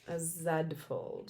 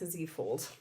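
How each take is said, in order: First: The letter is said the Canadian way, zed. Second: The letter is said the American way, zee.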